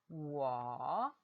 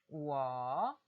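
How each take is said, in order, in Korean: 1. 음높이가 낮게 떨어졌다가 올라가요. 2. 음높이가 낮게 떨어졌다가 올라가요.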